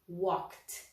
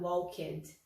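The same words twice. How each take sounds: First: The ending is a short t sound. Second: The ending is pronounced strongly as a separate syllable. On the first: The speaker calls it right. "o som do ed vai virar um som de T" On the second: The speaker calls it wrong. "você não vai falar walked, walked, não"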